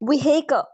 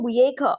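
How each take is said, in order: First: The h sound in the middle is pronounced. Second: The h sound in the middle is silent. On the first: "American accent सीखना चाह रहे हैं तो आप इसमें हाँ की आवाज देंगे" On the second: "British accent में इसको पढ़ते हैं विहेक, एच साइलेंट हो जाता है"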